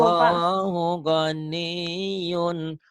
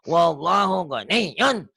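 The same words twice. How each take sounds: First: The words flow evenly without jerky pushes. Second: The words are pushed out in jerky, forceful bursts. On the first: The speaker calls it right. "nggak disentak" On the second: The speaker calls it wrong. "Disentak-sentak gitu"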